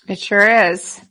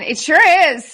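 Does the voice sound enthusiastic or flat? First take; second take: flat; enthusiastic. First: It is said flatly, with little enthusiasm. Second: It is said with lively, enthusiastic energy. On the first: "Did that sound enthusiastic?" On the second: "let me try it again"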